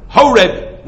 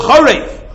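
First: "Horeb" with a plain English H and a hard b at the end; the wrong, English reading of the name; Horeb pronunciation. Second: The right Hebrew reading of the name; Chorev pronunciation. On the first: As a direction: say "Horeb" the anglicized way, HO-reb. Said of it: "it's not Horeb". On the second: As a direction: rasp the ch of "Chorev" and close on v. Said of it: "No, it's called Chorev". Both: Shown as a demonstration.

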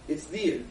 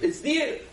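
First: "It's there." dropped low and softer, falling; low firm affirmation. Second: Lifted, questioning rise on "It's there."; rising affirmation. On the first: Preacher reassuring listeners, a low soft falling "It's there.". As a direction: settle "It's there." down low and quiet, with finality. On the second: Preacher to congregation, a high rising "It's there.". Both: Real, not acted.

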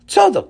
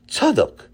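First: Tzadok called again much higher and louder. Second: Said in the usual way. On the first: A narrator's reading. Tati calling the weeping Tzadok's name more urgently. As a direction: raise your voice to get through to him. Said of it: "repeated call". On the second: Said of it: "Tzadok repeated louder".

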